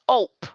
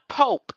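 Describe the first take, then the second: First: The word begins without any P sound. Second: The word begins with a clear P sound. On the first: The speaker calls it right. "The P has always been silent" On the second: The speaker calls it wrong. "It's not Pope"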